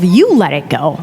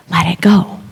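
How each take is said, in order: First: Indignant retort. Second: Whispered into someone's ear. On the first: Student silently snapping back at yoga teacher, indignant retort. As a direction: stress on "You", pitched up then falling. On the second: Yoga teacher to a struggling student, whispering. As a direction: imitate a teacher's hushed whisper. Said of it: "she whispers in my ear". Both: Retold or imitated.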